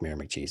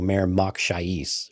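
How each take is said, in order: First: The name is said quickly with syllables blended. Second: The name is said slowly with separated syllables. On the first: It sounds like a joke name. The speaker calls it wrong. "really did just blurt it out" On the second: It sounds like a cool name. The speaker calls it right. "I wish they would have enunciated better"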